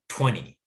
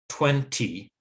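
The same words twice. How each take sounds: First: The middle T is a quick D-like flap. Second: The middle T is a clear, full T. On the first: The speaker calls it right. "but twenty" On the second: The speaker calls it wrong. "Not twenty"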